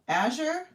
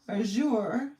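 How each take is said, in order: First: The stress is on the first syllable. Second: The stress is on the second syllable. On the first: "that's first syllable" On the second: "second syllable"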